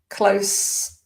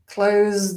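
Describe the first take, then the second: First: The final consonant is an s sound. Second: The final consonant is a z sound. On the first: It is an adjective. "when we've got the s sound, we've got an adjective or a noun" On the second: It is a verb. "The z pronunciation, you've got a verb"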